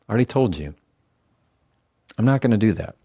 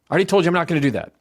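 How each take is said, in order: First: It is said slowly and quietly. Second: It is said fast and tense.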